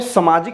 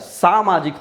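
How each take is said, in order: First: The first vowel is a short 'a'. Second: The first vowel is a long 'aa'. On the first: The speaker calls it wrong. "स में सामाजिक नहीं होता है" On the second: The speaker calls it right. "सामाजिक हो जाता है"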